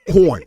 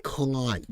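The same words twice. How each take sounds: First: "Corn" the Brooklyn way, rounded vowel. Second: "con" for corn, drawn out Boston-style. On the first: Host shows viewers New York corn, Brooklyn pronunciation. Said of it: "In New York accent, in Brooklyn accent". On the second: Host shows the rejected Boston way, con without r. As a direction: say con with the r dropped, open vowel. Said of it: "we pronounce corn as con". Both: Shown as a demonstration.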